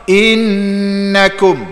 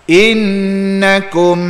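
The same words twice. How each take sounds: Both takes have the same delivery.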